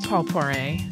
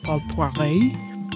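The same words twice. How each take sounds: First: The name is said with an English accent. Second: The name is said with a French accent.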